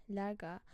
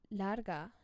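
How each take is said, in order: Both takes have the same delivery.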